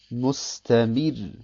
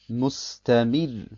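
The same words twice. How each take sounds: The two takes are said the same way.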